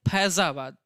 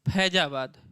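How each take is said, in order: First: The first consonant is the Arabic-Persian consonant sound. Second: The first consonant is the plain native Hindi sound. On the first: "तब हम कहते हैं फैजाबाद" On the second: "ये हम लोग लिखते हैं और इसको बोलते हैं फैजाबाद"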